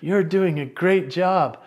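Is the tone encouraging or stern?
encouraging. The voice sounds warm and encouraging. The speaker sounds supportive. "that's the encouraging version"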